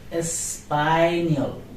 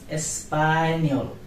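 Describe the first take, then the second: Both takes have the same delivery.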